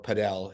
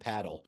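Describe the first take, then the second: First: It is said the way it is spelled. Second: It sounds like the English word paddle. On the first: The speaker calls it wrong. "as some people like to pronounce it, based on its spelling" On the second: The speaker calls it right. "it is pronounced paddle"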